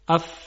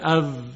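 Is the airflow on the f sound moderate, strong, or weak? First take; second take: moderate; weak. First: The f is said with moderate breath. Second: The f is said with too little breath. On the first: The speaker calls it right. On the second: The speaker calls it wrong.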